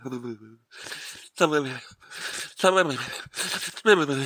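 It is said in a trembling voice.

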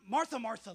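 It sounds contemptuous, as if to an idiot.

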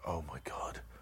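It is said in a frightened tone.

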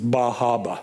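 It is said in a Massachusetts accent, dropping r's.

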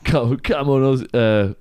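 It is said in a suggestive, innuendo-laden way. It sounds sexual. The speaker calls it wrong. "Not like that"

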